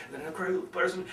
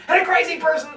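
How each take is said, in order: First: Suddenly hushed, hammed-up; crazy person. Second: Sudden high-pitched outburst; crazy person. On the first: Speaker mocking forced vocal variety, sudden crazy hush. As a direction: drop abruptly to a near whisper. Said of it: "sound like a crazy person". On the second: Speaker mocking forced vocal variety, crazy high outburst. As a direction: leap way up high, hammed-up. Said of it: "then you sound schizo". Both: Shown as a demonstration.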